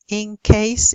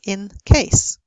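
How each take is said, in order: First: The word in ends with an ng sound. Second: The word in ends with an n sound. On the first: "You say ... in case even" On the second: "instead of in case"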